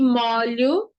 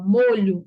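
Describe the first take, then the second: First: The stressed o vowel is open. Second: The stressed o vowel is closed. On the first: It means getting oneself wet. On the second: It names a sauce.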